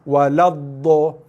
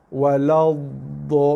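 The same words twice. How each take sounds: First: The dhad sound is hard and forceful. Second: The dhad sound is soft and cushioned. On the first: The speaker calls it wrong. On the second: The speaker calls it right. "Dhad bukan huruf yang keras"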